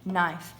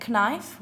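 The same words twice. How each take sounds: First: "knife" said as nife; "knife" beginning on a clean n; silent K. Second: "knife" said as k-nife; wrongly voiced k at the start of "knife"; K sounded. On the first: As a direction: drop the k in "knife". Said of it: "we say knife". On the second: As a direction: pronounce a hard k before the n in "knife". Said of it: "but we don't say knife". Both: Shown as a demonstration.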